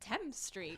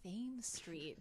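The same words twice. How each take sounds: First: Thames is said the way non-locals say it. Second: Thames is said the way Baltimore locals say it. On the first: The speaker was new to the city. The speaker calls it wrong. "when I first moved to Baltimore and I said Thames Street" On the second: This is how the city's residents say it. The speaker calls it right. "oh, it's Thames Street"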